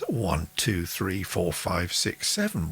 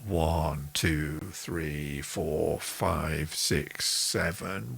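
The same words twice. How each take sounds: First: The count is spoken fast. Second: The count is spoken slowly.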